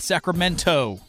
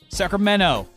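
First: The word is said plainly, as it is written. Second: The word is said in a California accent. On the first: The speaker calls it wrong. "Not Sacramento" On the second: The speaker calls it right. "Us Californians have an accent"

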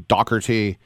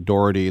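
First: The name is said the Scottish way. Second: The name is said the Irish way.

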